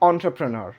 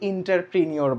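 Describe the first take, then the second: First: The word does not begin with 'inter'. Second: The word begins with an 'inter' sound. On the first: The speaker calls it right. "It's entrepreneur" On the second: The speaker calls it wrong. "এটাকে অনেকে ইন্টারপ্রিনিয়র বলে, but it's totally wrong"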